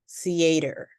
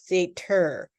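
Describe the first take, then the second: First: The T is a soft, light D sound. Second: The T is a sharp, popped T sound. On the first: The speaker calls it right. "light D sound" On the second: The speaker calls it wrong. "we do not say"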